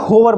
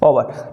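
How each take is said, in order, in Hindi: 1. यह शब्द h ध्वनि से शुरू होता है। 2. यह शब्द स्वर से शुरू होता है, इसमें h नहीं है। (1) "ना कि होवर बोलेंगे" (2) "ओवर बोलते हैं"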